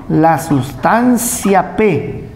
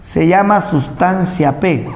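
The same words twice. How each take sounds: First: "La sustancia P" spoken very slowly and deliberately; drawn-out term. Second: Said in the usual way. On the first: Shown as a demonstration. Teacher spelling out the term slowly for students. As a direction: stretch "sustancia P" for the class to note.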